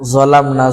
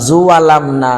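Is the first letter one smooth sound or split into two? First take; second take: one sound; split. First: The first letter is one smooth sound. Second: The first letter is split into two syllables. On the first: The speaker calls it right. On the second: The speaker calls it wrong.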